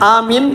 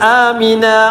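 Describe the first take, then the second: First: The word ends on an 'n' consonant. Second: The word ends with an open 'a' vowel. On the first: The speaker calls it wrong. "ആമിൻ എന്നല്ല" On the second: The speaker calls it right.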